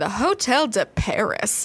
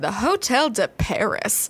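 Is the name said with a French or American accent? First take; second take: American; American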